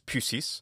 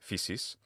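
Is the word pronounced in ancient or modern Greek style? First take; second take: ancient; modern. First: It is pronounced the ancient Greek way. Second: It is pronounced the modern Greek way. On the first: "The word for nature in ancient Greek is physis" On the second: "Modern Greeks pronounce this physis"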